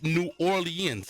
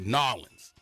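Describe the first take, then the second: First: The name is said in a standard accent. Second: The name is said in a Southern accent.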